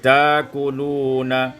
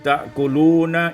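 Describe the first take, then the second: First: A long vowel replaces the glottal stop. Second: A glottal stop follows the first syllable.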